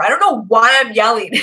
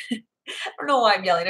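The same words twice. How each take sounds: First: Yelling. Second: Laughing, quieter. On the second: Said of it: "Okay, I'm gonna stop". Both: Real, not acted.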